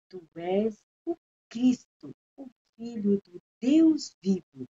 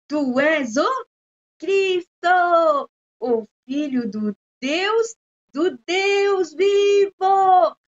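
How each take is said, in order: First: The whole verse is spoken softly. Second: Cristo and Deus vivo are spoken loudly. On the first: "bem assim, baixinho" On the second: "Cristo, alto, e Deus vivo, alto"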